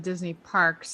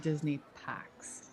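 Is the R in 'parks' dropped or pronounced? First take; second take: pronounced; dropped. First: The R in parks is clearly pronounced. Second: The R in parks is dropped, Boston style. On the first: "I don't talk about the Disney parks" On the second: "I talk about the Disney packs"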